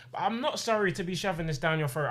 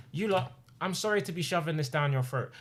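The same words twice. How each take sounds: First: Not leaned on, defiant; stress on not. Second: Said in the usual way. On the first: Shown as a demonstration. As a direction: hit not in "I'm not sorry". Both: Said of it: "that guy that goes".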